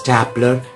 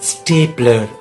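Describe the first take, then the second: First: The first vowel sounds like in 'stop'. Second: The first vowel sounds like in 'stay'. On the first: The speaker calls it wrong. "But it's not స్టాప్లర్" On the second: The speaker calls it right. "It is స్టేప్లర్"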